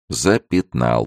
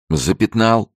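First: Said in the usual way. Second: High, lively cry of a game; laughing playful call. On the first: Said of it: "повторил он". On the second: A narrator's reading. Francis touching the girl's shoulder in a game, playfully amused. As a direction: call out the tag as a merry tease. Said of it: "рассмеялся он".

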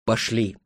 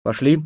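First: "Пошли" as a statement, falling at the end; corrected to statement. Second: "Пошли" as a short question, rising at the end. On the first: Leader corrects himself to companions, "Пошли" with falling tune. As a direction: say "Пошли" as a quiet decision, tune down. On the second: Leader checks with companions, "Пошли" asked with rising tune. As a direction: ask "Пошли" with a lifted ending. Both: A narrator's reading. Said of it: "и поправился".

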